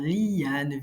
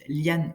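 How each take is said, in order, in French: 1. Les deux voyelles sont séparées en deux syllabes. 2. Les deux voyelles sont fusionnées en une seule syllabe. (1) "séparer en deux" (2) "je peux dire comme d'habitude"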